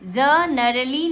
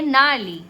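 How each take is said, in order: First: A g sound is spoken before the n. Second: The word begins directly with the n sound. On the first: The speaker calls it wrong. "ज नरली नहीं पढ़ेंगे" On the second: The speaker calls it right. "इसको हम क्या पढ़ेंगे? नाली"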